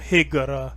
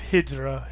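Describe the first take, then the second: First: The middle consonant is a hard g sound. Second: The middle consonant is a j sound. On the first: "I'm doing the pronunciation of the Omani spelling" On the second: "instead of hijra"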